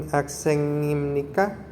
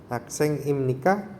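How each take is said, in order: The two takes are said the same way.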